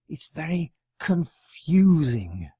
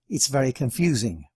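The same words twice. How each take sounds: First: The word confusing carries the stress. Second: The word very carries the stress. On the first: The speaker calls it right. "it sounds much better" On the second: The speaker calls it wrong. "The temptation is to choose the word very"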